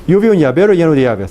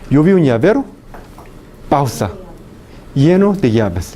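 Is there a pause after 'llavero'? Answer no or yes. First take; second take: no; yes. First: It is said without a pause after llavero. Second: It is said with a pause after llavero. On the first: "pronuncian estas palabras sin ninguna pausa entre las palabras" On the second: "Un hablante leyendo. ... pausa"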